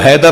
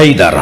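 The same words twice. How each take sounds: First: Said in the usual way. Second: حیدر said the Arab way, not like ours; حیدر with Arabic sounds; Arabic pronunciation. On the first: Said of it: "وہ حیدر نہیں بولتا ہماری طرح". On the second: Shown as a demonstration. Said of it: "وہ کہتا ہے حیدر".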